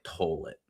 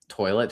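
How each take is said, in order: First: The word is said with a Southern twang. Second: The word is said in a plain accent.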